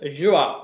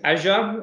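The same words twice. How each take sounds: First: It is said with an Australian pronunciation. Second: It is said with an American pronunciation. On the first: "because I'm very, very Australian, I pronounce it Azure" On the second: "all of my American friends keep telling me"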